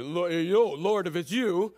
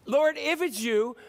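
First: Slow, put-on character voice; drawn-out, put-on call to the Lord; Peter's "right" voice. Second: Said in the usual way. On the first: Shown as a demonstration. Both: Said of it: "let me do it in the right voice".

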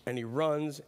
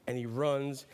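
The two takes are said the same way.

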